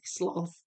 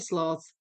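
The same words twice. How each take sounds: First: The word is said the American way. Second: The word is said the Australian way. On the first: "The Americans apparently say sloth" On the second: "Julie, you're Australia, right? So you say sloth"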